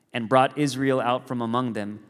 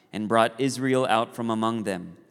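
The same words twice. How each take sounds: No difference in how they are said.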